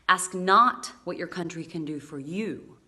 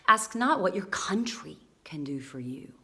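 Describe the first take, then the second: First: The stress falls on not and you. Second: The stress falls on country and do.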